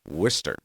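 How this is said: It is said in a general pronunciation.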